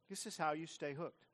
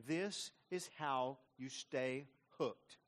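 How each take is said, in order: First: Said in the usual way. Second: Very slow, weighty delivery; emphatic slow. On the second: Real, not acted. Preacher driving home the point, very slow. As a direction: land each word slowly. Preacher repeats key line.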